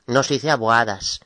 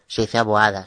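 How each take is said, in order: First: "aboadas" with the final S held and hissed; mock the wrong "aboadas", stretching the S; wrong plural with S. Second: "aboada" ending cleanly on the vowel, no S; firm correct "aboada" without the S; "aboada" closed on a plain final a. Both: Shown as a demonstration. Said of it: "sin la S al final".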